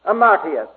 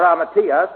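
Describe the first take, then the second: First: "Amartias" with the accent before the proper shift; first accent placement. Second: "amatias" with the accent moved later, onto "TI"; proper Greek accent. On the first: Teacher giving a Greek word for sin, first pronunciation, stressed mid-word. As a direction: say "Amartias" stressing the middle, "MAR". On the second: Teacher correcting himself on a Greek word, proper accent on "TI". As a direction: say "amatias" as ama-TI-as. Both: Shown as a demonstration. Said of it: "proper accent".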